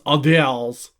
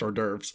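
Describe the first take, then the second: First: It is said in an exaggerated French-style accent. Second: It is said in a plain, ordinary accent. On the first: The speaker calls it wrong. "in Hugo's terrible French Alsurian" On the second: The speaker calls it right. "it is pronounced hors d'oeuvres"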